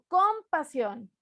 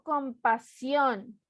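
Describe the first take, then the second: First: The stress is on the first syllable. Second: The stress is on the third syllable. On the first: The speaker calls it wrong. "No digo compasión" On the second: The speaker calls it right. "digo compasión. Última sílaba"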